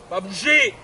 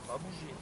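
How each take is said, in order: First: The voice is firm and displeased. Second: The voice is soft and reassuring. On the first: The dog moved and is being put back in place. "donner un ton très ferme" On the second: The dog is doing the exercise well. "il faut une voix douce quand l'exercice est bien effectué"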